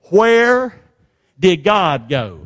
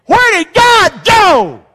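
First: Said in the usual way. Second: High, loud, drawn-out cry to God; desperate full-voice holler; anguished shout. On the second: Shown as a demonstration. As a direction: shout it slowly, every word punched. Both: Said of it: "You ever said it like that?".

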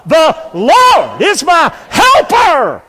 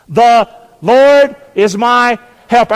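First: Slow, high, full-force shout; excited shout. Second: Raised, slow call to repeat; leading congregation. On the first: Preacher pushes congregation for one more time, excited shout. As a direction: belt it out word by word to fire them up. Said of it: "I need you to get excited". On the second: Preacher asks congregation to say the verse with him, leading congregation. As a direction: lead them in a loud, measured declaration. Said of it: "say it with me". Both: Shown as a demonstration.

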